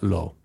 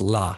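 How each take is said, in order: First: The word is said with an 'oh' vowel. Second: The word is said with an 'ah' vowel. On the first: This is how the word is said in Hebrew. "not lo" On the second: This is how an Aramaic reader would say it. "Because that's how you say it in Aramaic. It's la"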